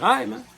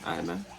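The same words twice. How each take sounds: First: Squeaky, high-pitched mock okay; mimicking him in a high voice; high mock reply. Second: Low, soft, resigned okay; low quiet reply. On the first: Imitating the hustler accepting the no in a high squeak. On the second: Retold or imitated. Imitating the hustler's deflated reply, low and soft. Second take, dropped.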